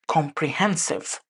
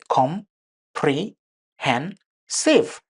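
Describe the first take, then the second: First: The word is said smoothly as one unit. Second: Each syllable is said separately with breaks.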